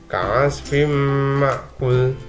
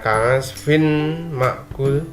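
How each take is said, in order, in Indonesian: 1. Bunyi n melebur menjadi bunyi m yang sengau dan ditahan. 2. Bunyi n diucapkan dengan jelas sebelum m. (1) "dimasukkan ke dalam huruf mim, jadi dibaca menjadi kasfim ma'kul" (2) "kalau biasanya dibaca kasfin ma'kul"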